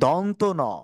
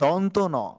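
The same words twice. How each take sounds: No difference in how they are said.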